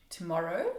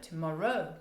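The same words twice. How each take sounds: First: "Tomorrow?" with a rising question tune. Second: "tomorrow" with a firm falling tune; falling statement tune. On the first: Teacher shows "tomorrow" turned into a question. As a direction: lift the end of "Tomorrow". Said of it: "turning it into a question". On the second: Teacher shows "tomorrow" as a plain statement. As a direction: let "tomorrow" drop at the end. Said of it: "but tomorrow". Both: Shown as a demonstration.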